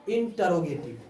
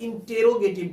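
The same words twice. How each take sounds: First: Said in the usual way. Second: "इंटेरोगेटिव" with a long "te" in the second syllable; common mispronunciation. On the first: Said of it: "इंटेरो नहीं". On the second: Shown as a demonstration. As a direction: say "इंटेरोगेटिव" with टे in place of ट. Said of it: "बहुत सारे लोग इंटेरोगेटिव कहते हैं". ("इंटेरोगेटिव" का गलत उच्चारण, ट की जगह टे)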